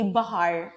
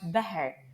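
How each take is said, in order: First: Standard Maltese, with open A vowels. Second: Nadur dialect, with E vowels.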